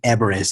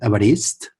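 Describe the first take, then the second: First: The name is said with English pronunciation. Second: The name is said with Catalan pronunciation. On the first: It is taken to be the name of the mountain. The speaker calls it wrong. "like a mountain" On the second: It is the speaker's own Latin-derived name. The speaker calls it right. "in Catalan ... is pronounced Everest"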